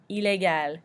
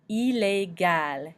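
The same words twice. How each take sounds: First: Illégal as ee-lay-gal in one smooth word; French pronunciation. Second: Illégal stretched out as ee-lay-GAL; slow French pronunciation. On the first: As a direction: say illégal the French way, not drawn out. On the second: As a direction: say Illégal very slowly, syllable by syllable. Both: Shown as a demonstration. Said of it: "we do pronounce the L at the end".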